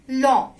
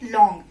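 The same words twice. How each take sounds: First: "long" ending on a French nasal vowel, no G; silent final G. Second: "long" closed with an English ng; English final NG. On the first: French teacher corrects learners, silent G in "long". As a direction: say "long" the French way, stopping before the G. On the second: Teacher shows learners what to avoid, "long" with English ng. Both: Shown as a demonstration. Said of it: "not long".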